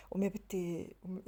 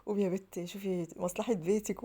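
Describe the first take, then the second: First: Said in the usual way. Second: Drawn-out quoted catchphrase, slow with rising end; Fifi Abdo line. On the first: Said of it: "عمالة أقول إيه". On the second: Retold or imitated. Wife quoting a famous line to herself, slow drawn-out. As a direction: stretch it slowly like a famous actress's line. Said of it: "على رأي فيفي عبده".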